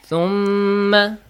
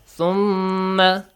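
Both takes have the same delivery.

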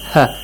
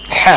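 First: The h is a soft, easy release of air. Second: The h is harsh and pushed from the throat. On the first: "with ha sound, the soft one" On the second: "you say ha, much harder"

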